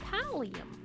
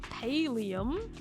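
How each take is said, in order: First: The first syllable sounds like 'pal'. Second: The first syllable sounds like 'pale'. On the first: The speaker calls it right. "It's pallium" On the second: The speaker calls it wrong. "It's not pallium"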